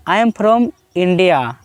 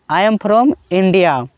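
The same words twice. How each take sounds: The two takes are said the same way.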